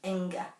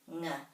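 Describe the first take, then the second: First: It is said with vowels around the sound. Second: It is said as one soft sound. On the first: The speaker calls it wrong. "It isn't inga" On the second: The speaker calls it right. "this has to be one sound, ng. It's very soft"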